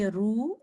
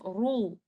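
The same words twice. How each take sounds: First: RU thin, back of the tongue left down; light ru. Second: RU thick, back of the tongue raised; heavy ru. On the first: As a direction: say 'ru' without raising the back of the tongue. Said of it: "forgot to make our back of the tongue up". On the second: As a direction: say 'ru' full-mouthed with the tongue back up. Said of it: "instead of ru". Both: Shown as a demonstration.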